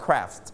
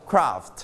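First: "craft" with an American "air"-like vowel; American pronunciation. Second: "craft" with a British long "ah"; British pronunciation. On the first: Teacher showing class how Americans say it, American "craft". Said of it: "สามารถออกเป็นเสียง air ได้". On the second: Teacher showing class how English people say it, British "craft". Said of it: "ถ้าเป็นคนอังกฤษหรือว่า British". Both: Shown as a demonstration.

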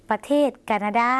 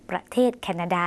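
First: แคนาดา opening on an unaspirated k, like "ka"; Lao pronunciation. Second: Said in the usual way. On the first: Shown as a demonstration. Teacher repeating the Lao country name for viewers, Lao pronunciation. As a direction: model แคนาดา as Lao "kanada". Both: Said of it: "หมายถึง".

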